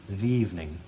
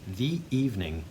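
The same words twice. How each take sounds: First: The two words run together without a break. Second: A glottal catch separates the two words. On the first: The speaker calls it wrong. "if we didn't re-articulate, it would sound like ... It almost sounds like one word" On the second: The speaker calls it right. "rather than ... making that little glottal sound"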